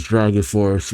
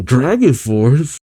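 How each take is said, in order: First: Said in the usual way. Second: Slow, stretched mock disbelief; imitated freak-out, lightly played; Natsu freaking out. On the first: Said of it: "No, Happy says". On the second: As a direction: draw it out as a startled question. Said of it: "Natsu freaks out saying".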